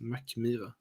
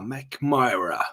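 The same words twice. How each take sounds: First: It is said the Swedish way, flat and unforced. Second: It is said the English way, with strong stress. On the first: This is how Swedes say the name. "There's no power to that word. We say it McMyra" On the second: This is how others abroad say the name. "when you hear everyone talking about McMyra because they were saying"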